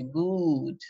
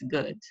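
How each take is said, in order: First: The vowel is a long oo sound. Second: The vowel is a short oo sound. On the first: The speaker calls it wrong. "We don't say good" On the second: The speaker calls it right. "It's good. whereas good, it's short"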